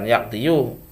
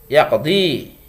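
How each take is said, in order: First: The word ends with an audible 'yu' sound. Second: The word ends with a plain 'i' sound. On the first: The speaker calls it wrong. "bukan yaqdiyu" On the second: The speaker calls it right. "tapi dikira-kirakan saja"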